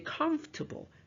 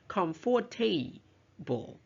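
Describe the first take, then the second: First: The middle syllables are reduced, nearly silent. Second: Every syllable is fully pronounced. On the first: The speaker calls it right. "the second and third syllables are schwa, which means we don't usually pronounce them" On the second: The speaker calls it wrong. "We don't say comfortable"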